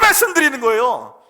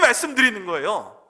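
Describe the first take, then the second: First: It is shouted at full, straining volume. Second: It is said louder, with added force. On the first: This is speaking with the greatest intensity. "악을 쓰며 말씀드리는" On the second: This is speaking with emphasis. "좀 더 큰 소리로 소리 질러서"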